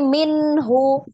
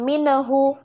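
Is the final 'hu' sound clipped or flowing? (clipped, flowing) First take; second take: flowing; clipped. First: The final hu sound flows out with breath. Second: The final hu sound is cut off abruptly. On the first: The speaker calls it right. "minhu dialirkan ya" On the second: The speaker calls it wrong. "hati-hati jangan minhu"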